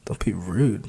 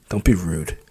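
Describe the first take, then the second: First: Breathy whisper, rising on rude. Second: Said in the usual way. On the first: Acted. She repeats his words to herself, whispering. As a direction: whisper it back to herself, puzzled.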